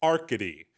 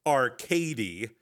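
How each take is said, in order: First: Arcady with the stress on the second syllable, arCAdy; right stress. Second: Arcady said to rhyme with arcade, stress on the first syllable; wrong stress. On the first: Narrator shows the correct name, stress on the second syllable. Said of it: "with the accent on the second syllable". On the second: Narrator shows the wrong way, stress on the first syllable. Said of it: "It's not". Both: Shown as a demonstration.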